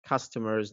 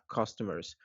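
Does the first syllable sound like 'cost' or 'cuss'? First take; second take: cuss; cost. First: The first syllable sounds like 'cuss'. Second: The first syllable sounds like 'cost'. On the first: The speaker calls it right. "seems like customers" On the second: The speaker calls it wrong. "not customers"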